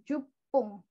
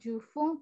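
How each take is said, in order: First: The middle consonant is a hard p sound. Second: The middle consonant is a soft f sound. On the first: The speaker calls it right. "tapi jupung" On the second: The speaker calls it wrong. "bukan jufung"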